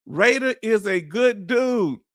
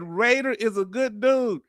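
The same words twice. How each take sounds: First: Raider is a good dude, each word drawn out slowly and weighted, stress on Raider; slow deliberate declaration. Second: Said in the usual way. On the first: Shown as a demonstration. Wants chat to screenshot it, slow emphatic statement. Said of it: "somebody screenshot this". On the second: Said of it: "John Michael said".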